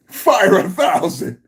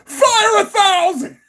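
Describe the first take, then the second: First: Said in the usual way. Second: Much higher, slow, crying tone; hammed-up high-pitched whimper on Fire a thousand; squealed mock wail. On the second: Shown as a demonstration. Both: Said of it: "repeats the quote twice".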